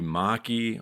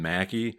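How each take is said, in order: First: The name is pronounced in an Italian-style way. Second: The name is pronounced in an Americanized way. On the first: This may be the original form of the name. "It may more accurately be Maki" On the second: This is the form the family itself used. "the family has used Mackey"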